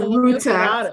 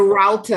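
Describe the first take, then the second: First: It is said with a non-American pronunciation. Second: It is said with an American pronunciation. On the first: The speaker calls it right. "instead of a router" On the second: The speaker calls it wrong. "it'd be like a router"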